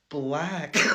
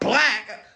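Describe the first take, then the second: First: The word is said quietly and plainly. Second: The word is said loudly and forcefully. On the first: It is just a neutral description. The speaker calls it right. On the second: It comes across as aggressive and overdone. The speaker calls it wrong.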